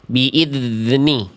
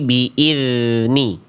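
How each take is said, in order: First: The dh sound is cut off and choppy. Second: The dh sound flows smoothly without stopping. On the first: The speaker calls it wrong. "biar bunyinya nggak begini" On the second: The speaker calls it right.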